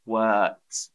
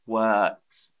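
First: The R sound is silent. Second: The same.

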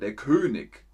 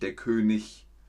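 First: The ending is said the Bavarian dialect way. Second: The ending is said the standard German way. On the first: The speaker calls it wrong. "ist in Bayern der König" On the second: The speaker calls it right. "und nicht der König"

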